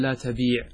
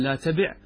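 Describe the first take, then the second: First: "لا تبيع" with a long ee before the ʕayn; long vowel. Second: "لا تبع" with a short i before the final ʕayn; short vowel. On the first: Teacher offers students the other option, "تبيع" with long ee. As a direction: hold the vowel in "تبيع": la tabeeʕ. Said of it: "أو تقول". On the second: Teacher offers students the first option, "تبع" with short i. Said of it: "هل أنت تقول". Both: Shown as a demonstration.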